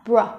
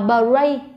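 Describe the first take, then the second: First: The b and r are joined with no vowel. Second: A vowel sound is inserted after the b. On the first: The speaker calls it right. "mình sẽ đọc là br" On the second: The speaker calls it wrong. "Mình không đọc là bray"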